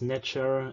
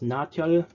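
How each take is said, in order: First: The word ends with an R sound. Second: The word ends with an L sound. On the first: This is the customary scholarly reading. "the conventional pronunciation in Egyptological discussions" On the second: This is how it was probably pronounced anciently. "the reconstructed pronunciation of these words"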